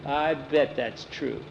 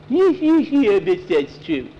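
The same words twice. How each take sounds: First: Slow, softer doubting remark; dry scoffing. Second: High, very slow taunting whine; mocking mimicry. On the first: Nancy doubts Skeeter's statue boast, dry scoffing. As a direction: draw it out softly, unconvinced. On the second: Boy mocks Nancy's doubting remark, taunting mimicry. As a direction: mimic it back in a silly high voice. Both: A narrator's reading.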